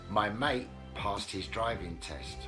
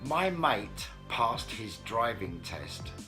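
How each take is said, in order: First: The t sounds are dropped. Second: The t sounds are pronounced.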